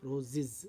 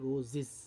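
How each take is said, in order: Both takes have the same delivery.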